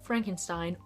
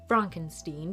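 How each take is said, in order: First: The name gets its usual pronunciation. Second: The name gets a deliberately altered pronunciation.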